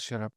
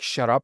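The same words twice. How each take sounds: First: It is said small and mildly. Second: It is said big and forcefully.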